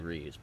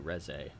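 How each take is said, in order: First: It is said with American English sounds. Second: It is said with Japanese sounds. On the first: "in an American accent, if you look at that, it you would say Reese" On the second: "pronounce it using Japanese sounds, you would say Reze"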